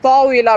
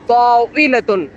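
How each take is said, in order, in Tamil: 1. இந்த சொல் வெறும் -a உயிரெழுத்தோடு முடிகிறது. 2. இந்த சொல் கூடுதலான -tun அசையோடு முடிகிறது. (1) "பட் ஸ்லாங்ஸ்ல, டைலாக்ஸ்லயுமே ... தாவீலா அப்படிதான் பயன்படுத்துவாங்க" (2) "தாவீலத்துன் தான் என்ன பண்ணுவாங்க? பயன்படுத்துவாங்க"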